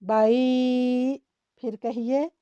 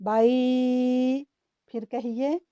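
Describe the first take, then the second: No difference in how they are said.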